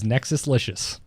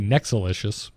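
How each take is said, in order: First: The full word nexus, with its s sound, is heard. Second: The s sound of nexus is dropped. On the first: "he put the S in there, so I'm pronouncing the entire thing" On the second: "I would say Nexalicious"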